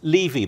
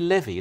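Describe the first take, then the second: First: The name is said the British way. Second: The name is said the Canadian way. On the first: This is how people in Britain say it. "in Britain, we always used to say Levy" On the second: This is how people here say it. "but here you say Levy"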